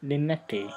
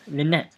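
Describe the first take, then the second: First: Lynette sounded out with an extra "tay" ending; tentative mispronunciation. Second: Lynette ending on a crisp "net"; corrected pronunciation. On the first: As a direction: say Lynette as "lin-net-tay". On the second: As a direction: say Lynette as "lin-NET", silent final e. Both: Shown as a demonstration. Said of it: "I think it's pronounced Lynette".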